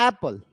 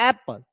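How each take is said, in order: The two takes are said the same way.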